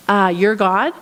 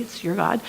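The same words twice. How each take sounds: First: Plain your God, said the way she did; your God, as she put it. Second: It's YOUR God, with YOUR stressed and said softly. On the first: Quoting the woman who called it the missionaries' God, said plainly. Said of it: "and we're like, Actually, it's your God". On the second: Missionaries gently correct the woman, stressing YOUR. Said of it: "and we're like, Actually". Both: Retold or imitated.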